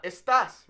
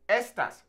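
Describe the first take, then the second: First: "estas" as es-TAS, loud second syllable; wrong final stress. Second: "Estas" as ES-tas, high and loud start; stress on first syllable. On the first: Teacher showing the mistake, "estas" stressed on TAS. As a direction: punch the end of "estas". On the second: Teacher modelling the demonstrative, "Estas" stressed on ES. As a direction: hit the first syllable of "Estas", then fall. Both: Shown as a demonstration. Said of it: "not estas".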